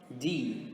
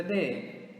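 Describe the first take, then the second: First: D said as a long "dee"; English letter D. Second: D said as "deh"; Portuguese letter D. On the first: Teacher answering with the English letter, D as "dee". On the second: Teacher naming the letter in Portuguese first, D as "deh". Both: Shown as a demonstration. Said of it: "in English is going to be".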